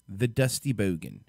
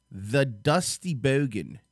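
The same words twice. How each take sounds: First: Said in the usual way. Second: Slow, stretched-out announcement; drawn-out intro. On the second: Acted. Host introducing the guest video, slow and drawn out. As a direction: drag out the name like a ring announcer.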